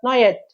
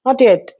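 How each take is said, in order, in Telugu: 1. 'not' చివరి t వినిపించదు. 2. 'not' చివరి t వినిపిస్తుంది.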